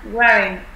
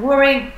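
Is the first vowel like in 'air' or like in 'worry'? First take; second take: air; worry. First: The first vowel sounds like in 'air'. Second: The first vowel sounds like in 'worry'. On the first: The speaker calls it right. "Ở đây là e" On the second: The speaker calls it wrong. "mình vẫn đọc thành worrying"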